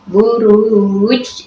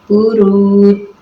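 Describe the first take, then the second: First: The final consonant bounces with a short echo. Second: The final consonant stops flat with no echo. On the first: The speaker calls it right. "jadi ada ej, kayak suara ej gitu" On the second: The speaker calls it wrong. "tidak ada pantulannya"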